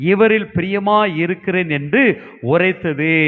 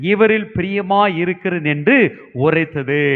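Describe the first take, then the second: No difference in how they are said.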